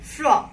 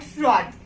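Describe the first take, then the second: First: "Fro" ending open on the vowel, no D; silent final D. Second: "fraud" closed on a sounded D; wrong D pronounced. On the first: Teacher answers her own question, "Fro" with silent D. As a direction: say "Fro" slowly, dropping the D. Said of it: "D you will not pronounce". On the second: Teacher shows learners the mistake, "fraud" with D sounded. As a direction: say "fraud" slowly, hitting the final D. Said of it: "Fro, not fraud". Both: Shown as a demonstration.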